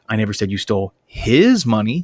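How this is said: The word 'his' is stressed. The money stolen may have belonged to someone else. "seems to imply that I think you might have stolen somebody else's money"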